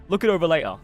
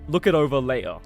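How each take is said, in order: First: A Cockney accent with dropped T and R sounds. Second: A Cockney accent with dropped T and R sounds.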